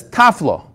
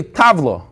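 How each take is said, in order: First: "tafla" with an f sound in the middle; mispronounced "tafla", f not v; wrong tafla. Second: "tavla" with a clear voiced v in the middle; correct tavla. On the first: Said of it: "She tried to say tavla". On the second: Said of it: "She says tafla". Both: Shown as a demonstration.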